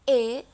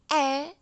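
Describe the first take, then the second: First: The vowel is the E jejek sound. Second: The vowel is the E miring sound. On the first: "E jejek itu E" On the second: "E miring E"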